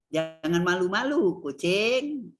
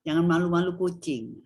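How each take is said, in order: First: "Jangan malu-malu", a break, then "kucing" as someone addressed; intonasi kalimat. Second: "jangan malu-malu kucing" run together as one phrase, no break; intonasi frasa. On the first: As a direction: split off "kucing" and draw it out like calling the cat. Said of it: "kalau kita mau jadikan kalimat juga bisa". ("Jangan malu-malu", jeda, lalu "kucing" sebagai sapaan) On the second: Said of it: "itu kan frase". ("jangan malu-malu kucing" diucapkan menyatu tanpa jeda) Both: Shown as a demonstration.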